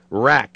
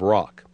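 First: The vowel is flat and fronted. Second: The vowel is open and back. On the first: "the flat, fronted vowel of the second syllable" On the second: "instead of rock"

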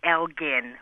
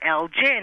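First: The g is hard, as in 'go'. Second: The g is soft, as in 'gin'. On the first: This is how it is said in Britain. "In the U.K., it is definitely Elgin, a hard G" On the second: This is how it is said in the United States. "here in the U.S., we like soft Gs, and you usually do hear Elgin"

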